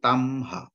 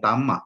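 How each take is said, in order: First: An h sound follows the m. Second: There is no h sound after the m. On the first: The speaker calls it right. "tapi tamha" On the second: The speaker calls it wrong. "Jadi bukan tama"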